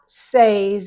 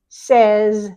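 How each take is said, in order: First: The vowel is a long A sound. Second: The vowel is a short E sound. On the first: The speaker calls it wrong. "Not says and said" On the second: The speaker calls it right. "it's says"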